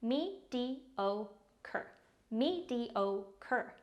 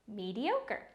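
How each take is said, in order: First: Mediocre broken into me, di, o, cre; syllable-by-syllable pronunciation. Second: Said in the usual way. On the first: Shown as a demonstration. Teacher showing learners how to pronounce mediocre, syllable by syllable. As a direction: say Mediocre slowly in four separate syllables. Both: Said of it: "Pronounced like this".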